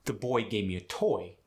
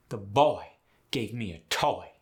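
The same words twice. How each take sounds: First: Said in the usual way. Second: Put-on Southern "boy" stretched to a oi; Southern exaggerated oi; Southern accent. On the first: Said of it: "the sentence". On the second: Shown as a demonstration. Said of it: "in the South would be".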